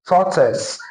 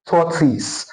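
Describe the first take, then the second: First: Tortoise said TOR-tuhs with a schwa; tortoise ending in a weak tuhs; correct tortoise. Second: Tortoise said tor-tis with a full i; the mistaken tortoise, tor-tis; tortoise with a clear ee-like second vowel; wrong tortoise. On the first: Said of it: "the schwa sound". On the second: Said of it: "and not". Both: Shown as a demonstration.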